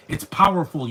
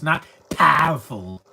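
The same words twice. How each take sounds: First: Said in the usual way. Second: "powerful" drawn out slowly with a squashed "pah-ful" vowel; mocking a mispronunciation. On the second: Mimicking the actor's wrong "powerful" for the camera, slow. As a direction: stretch the mangled "powerful" slowly and louder. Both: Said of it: "See, they say things wrong".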